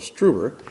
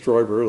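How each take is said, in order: First: The first vowel sounds like 'oo'. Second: The first vowel sounds like 'oy'. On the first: This is how someone unfamiliar with the name says it. The speaker calls it wrong. "the uninitiated may call, uh, call him Joseph Struber" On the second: This is the German way of saying the name. The speaker calls it right. "German pronunciation was Stoiber"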